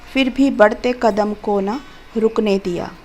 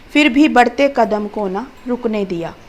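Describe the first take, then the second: The two takes are said the same way.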